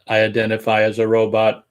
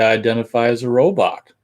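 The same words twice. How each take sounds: First: Flat, monotone robot delivery. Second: Said in the usual way. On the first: Shown as a demonstration. Host shows how to claim robot identity, robot voice. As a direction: say it evenly, like a machine. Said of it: "using the robot voice". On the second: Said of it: "it'd be funny if you did it like".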